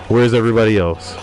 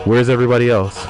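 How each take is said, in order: Both takes have the same delivery.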